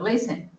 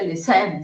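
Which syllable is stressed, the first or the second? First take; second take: first; second. First: The stress is on the first syllable. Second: The stress is on the second syllable. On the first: The speaker calls it right. "sino listen. La entonación está en la primera sílaba" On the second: The speaker calls it wrong. "No se dice listen"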